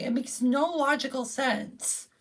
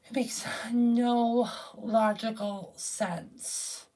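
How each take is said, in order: First: Said in the usual way. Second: Slow, breathy repeated whisper; exasperated whisper to himself. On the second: Real, not acted. Repeats line, then whispers it.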